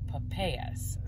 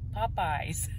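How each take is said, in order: First: The word sounds like the fruit name papayas. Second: The word sounds like the restaurant name Popeyes. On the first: The speaker calls it wrong. "something you pronounce wrong" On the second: The speaker calls it right.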